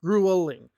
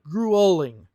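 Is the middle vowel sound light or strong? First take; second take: strong; strong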